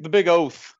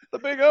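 First: Said in the usual way. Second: Laughing through the words. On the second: Real, not acted. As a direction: giggle as you say it. Repeats phrase laughing.

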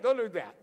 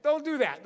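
First: Said in the usual way. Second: Don't punched louder with a falling close; stress on Don't. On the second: Shown as a demonstration. Preacher warning the congregation, Don't stressed. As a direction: hit Don't firmly. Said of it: "You shouldn't do that".

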